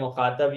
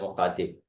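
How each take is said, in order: First: The second-last vowel is an 'a' sound. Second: The second-last vowel is an 'i' sound. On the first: "जबर वाला होता है मुखातब" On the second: "जेर वाला होता है मुखातिब"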